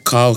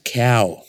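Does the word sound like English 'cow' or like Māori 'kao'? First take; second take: Māori kao; English cow. First: The word is said with its Māori pronunciation. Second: The word sounds like the English word cow. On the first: The speaker calls it right. "we were told to say just kao" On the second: The speaker calls it wrong. "my kao came out as cow"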